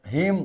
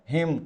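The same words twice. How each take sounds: First: हिम with a short i; short vowel. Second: हिम stretched to a long ee, heem; long vowel. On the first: Teacher contrasting two look-alike words, short vowel. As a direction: say हिम quickly, keeping the i short. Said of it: "छोटी की मात्रा हिम है तो बर्फ". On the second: Teacher contrasting two look-alike words, long vowel. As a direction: hold the i in हिम long and slow. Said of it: "बड़ी की मात्रा हिम है तो लोहा". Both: Shown as a demonstration.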